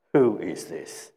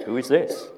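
First: "Who is this" drawn out, falling low at the end; slow falling question. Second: "Who is this" said quicker, rising on "this"; rising question. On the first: Preacher weighing the disciples' question after the storm, slow and falling. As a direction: say "Who is this" slowly, lower, tune dropping. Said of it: "we emphasize the terminology". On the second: Preacher offering another way to ask the question, rising at the end. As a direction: lift "this" upward into an open query. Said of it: "Or we could say". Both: Shown as a demonstration.

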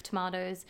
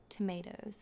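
First: "tomatoes" as tuh-MAH-toes; Australian pronunciation. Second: "tomatoes" as tuh-MAY-toes, set apart, softer; American pronunciation. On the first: Telling what I would say in Australia, "tomatoes" as tuh-MAH-toes. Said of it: "in Australia, I would say". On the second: Explaining an order, "tomatoes" as American tuh-MAY-toes. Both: Shown as a demonstration.

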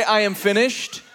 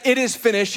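First: "I am finished" with a questioning rise; the wrong reading, rising; stress on I am finished. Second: "It is finished" said firm and falling; stress on it is finished. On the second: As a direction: land "It is finished" as a firm statement. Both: Shown as a demonstration. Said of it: "he did not say".

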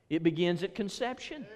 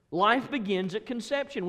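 First: Said in the usual way. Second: Life raised and punched, higher and firmer; preacher restating his point with more force; emphatic. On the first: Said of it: "When does life begin". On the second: Real, not acted. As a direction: hammer home the word Life.

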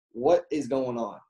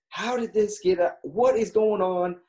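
First: Said in the usual way. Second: Mock annoyed demand, pitched up; retold angry outburst. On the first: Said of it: "his own plain question to Morgan". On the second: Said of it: "And he gets pissed".

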